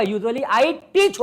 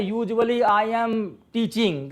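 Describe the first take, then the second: First: Slow careful correct sentence; 1 slow correct version. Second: Said in the usual way. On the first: Shown as a demonstration. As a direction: say it slowly, the right way. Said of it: "होगा". (धीमे, सही वाक्य) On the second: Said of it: "गलत है यार".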